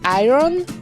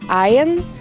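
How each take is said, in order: First: The word is read out as it is spelled. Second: The word is said in the standard way. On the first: The speaker calls it wrong. "a lot of people read it as iron" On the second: The speaker calls it right. "actually it's supposed to be something like iron"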